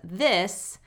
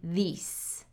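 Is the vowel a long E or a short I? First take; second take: short I; long E. First: The vowel is a short I. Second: The vowel is a long E. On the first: The speaker calls it right. "what it should be in American English as this" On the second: The speaker calls it wrong. "I'm hearing these"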